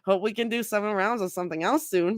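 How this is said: The line is mumbled indistinctly. The speaker calls it right.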